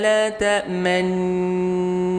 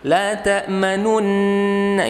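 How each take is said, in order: First: The lips round briefly during the nasal hum. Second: A full u vowel is sounded between the n sounds. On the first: The speaker calls it right. "kita langsung monyongkan sejenak, sebentar langsung ditarik lagi" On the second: The speaker calls it wrong. "jangan manunna, la ta'manunna, ini udah beda"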